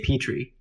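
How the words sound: It has an American accent, long first vowel.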